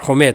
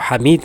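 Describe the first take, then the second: First: The name starts 'hu' and ends 'maid'. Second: The name starts 'ha' and ends 'meed'. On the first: This is how the name is said in Arabic. "असल में अरबी लहजे में हुमैद होता है" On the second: This is how the subcontinent says the name. "हम इसको हमीद कहते हैं बरसग़ीर में"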